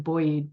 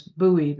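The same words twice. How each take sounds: First: Put-on buoyed said like boy-ed, with an oy sound; mispronounced buoyed. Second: Buoyed said as boo-ed, firm and a bit louder; corrected buoyed. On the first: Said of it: "I almost said buoyed". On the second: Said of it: "but that's not the words". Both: Shown as a demonstration.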